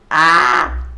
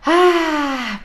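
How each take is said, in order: First: The scream is held inward in suffering. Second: The scream is pushed outward with relief.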